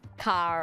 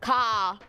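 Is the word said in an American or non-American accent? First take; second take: American; non-American. First: The word is said in an American accent. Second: The word is said in a non-American accent. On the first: "when you try to say it in an American accent" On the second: "I don't say car like that"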